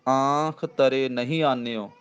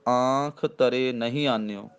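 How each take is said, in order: Both takes have the same delivery.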